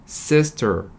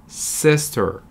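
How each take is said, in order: No difference in how they are said.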